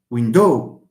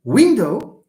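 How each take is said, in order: First: "window" said win-DOW, second syllable strong; misplaced final stress. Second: "window" said WIN-dow, first syllable strong; stress on first syllable. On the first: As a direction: wrongly lean on DOW in "window". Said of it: "غضحكوا عليا لو قلت كنهضر هكا". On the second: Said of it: "or do we say window". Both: Shown as a demonstration.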